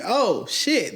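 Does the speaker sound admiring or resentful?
admiring. It sounds admiring and delighted. The person is welcomed and appreciated. "People love and appreciate the fact"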